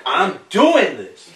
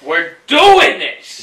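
First: Slow, emphatic show of energy; energetic demo. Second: Slow, loud hype shout; hyped up. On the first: Shown as a demonstration. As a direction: show how to sell it. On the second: Pretend. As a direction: pump up the crowd. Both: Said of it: "you have to come with that energy".

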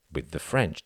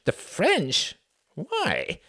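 First: Said in the usual way. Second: High, incredulous questioning; surprised echo. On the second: Acted. Sam echoing Cuthbert's answer in high disbelief. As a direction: throw the words back in disbelief.

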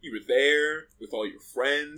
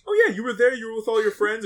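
First: Slow accusing. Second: Casual. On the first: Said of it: "or she's like". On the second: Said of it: "did she say it like". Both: Retold or imitated.

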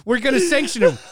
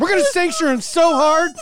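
First: Laughing mock threat. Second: Higher and louder, laughing hard as he says it; mock threat through laughter. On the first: Mocking politicians' empty threats. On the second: Mocking politicians' empty threats to listeners, laughing loud. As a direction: crack up while vowing to sanction him so hard.

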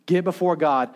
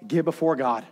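No difference in how they are said.

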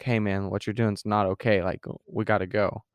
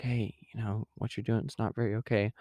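First: Spoken up, direct warning; firm warning. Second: Soft, hesitant half-whisper; mock whisper. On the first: Acted. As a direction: warn a friend outright, in full voice. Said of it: "Or you're gonna be like". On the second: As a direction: gently voice a timid warning, much softer. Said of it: "Just kinda whisper to him".

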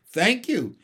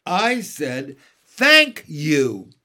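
First: Pointed thanks, raised in pitch; meaningful. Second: Loud, emphatic repeated thanks; louder. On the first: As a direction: say it as a hinted rebuke. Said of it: "said Mary Poppins meaningly". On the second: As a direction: hit THANK hard as a rebuke. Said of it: "Mary Poppins a little louder". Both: A narrator's reading.

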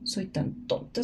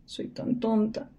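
First: Whispered self-insult. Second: Hushed self-insult. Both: Acted.

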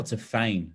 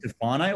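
First: Tafane said tuh-FAYN; second pronunciation option. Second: Tafane said tuh-FAH-nay; first pronunciation option. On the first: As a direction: drop the last syllable, Tafane ending on FAYN. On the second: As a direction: keep the NAY ending on Tafane. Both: Shown as a demonstration. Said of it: "do you say Tafane or Tafane".

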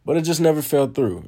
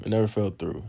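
First: NEVER pushed up high and loud in "never fell through"; loud stress on never; emphatic. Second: Said in the usual way. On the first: Real, not acted. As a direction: hit the word never hard, exasperated. Stressing his frustration, repeated.

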